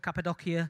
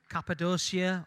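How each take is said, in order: First: The name has a Turkish-style pronunciation. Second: The name has an English-style pronunciation.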